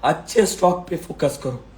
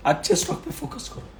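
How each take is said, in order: First: Said in the usual way. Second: अच्छे stock पे focus करो pushed up high but softer; higher, thinner voice on पे as the sore throat strains; strained high repeat. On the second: Real, not acted. To viewers, a strained high softer repeat. Repeats advice several times.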